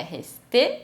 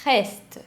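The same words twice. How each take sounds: First: RESTÉ com TÊ tônico; E final pronunciado. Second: RESTE numa sílaba, fim em ST; E final mudo. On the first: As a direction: diga RESTÉ em duas sílabas, acento no fim. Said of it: "não é resté". (RESTÉ com o E final sonoro) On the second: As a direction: diga RESTE sem pronunciar o E. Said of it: "ele é mudo". (RESTE à francesa, R gutural e final seco em ST) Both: Shown as a demonstration.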